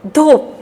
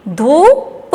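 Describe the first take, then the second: First: "धूप" in one piece with a long oo; blended with stress. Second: "धूप" split into long rising "धू" and short "प"; sounding out. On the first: Teacher blending the word for children, stressed. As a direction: join "धूप" up, holding the vowel. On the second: Teacher drilling children, sounded out. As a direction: break "धूप" apart. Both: Shown as a demonstration. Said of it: "जोर दे के बोलना".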